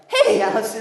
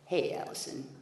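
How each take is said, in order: First: The voice cracks on the words. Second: The voice stays steady and smooth.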